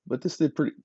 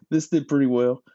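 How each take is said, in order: First: Interrupted by a hiccup; talking with the hiccups. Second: Said in the usual way. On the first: Real, not acted. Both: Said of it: "pardon me, got the hiccups".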